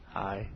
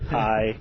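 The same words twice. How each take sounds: First: It is said softly. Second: It is said loudly.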